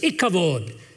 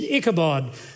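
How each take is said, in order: First: It is said with a v sound, Hebrew-style. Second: It is said with a b sound, English-style. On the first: "it was ikavod" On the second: "what we would say in the anglicized pronunciation"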